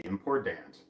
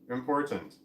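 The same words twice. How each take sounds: First: "important" said as "im-por-dant", low. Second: "Important" carefully pronounced with a T; unnatural important. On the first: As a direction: hit a D and a full "ant" in "important". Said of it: "it was, it was a D". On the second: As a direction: sound out the T in "Important". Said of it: "That's not how I naturally say important". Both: Shown as a demonstration.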